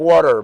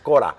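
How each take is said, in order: First: It is said as English 'quarter'. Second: It is said as 'cora', without the 'qu' sound. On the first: This is the original English word. "if you listen to it, it's like quarter" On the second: This is how market sellers say it. "but it's cora"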